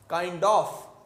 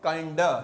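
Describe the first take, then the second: First: The phrase ends with a full 'of'. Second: The 'of' is reduced to a short 'a'.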